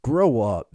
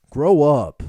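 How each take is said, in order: First: Said in the usual way. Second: Loud teasing grow up; playful loud rebuke; mock scolding. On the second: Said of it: "Grow up, man".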